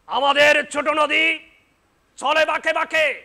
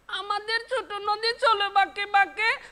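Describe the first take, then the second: First: It is recited in a politician's manner. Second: It is recited in a child's voice.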